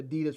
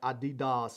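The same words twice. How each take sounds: First: The name is said the usual American way. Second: The name is said a non-American way. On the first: The speaker calls it wrong. "I'm probably pronouncing Adidas wrong. Everybody says that they're that Americans pronounce it wrong" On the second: The speaker calls it right. "I think it's like Adidas or something like that"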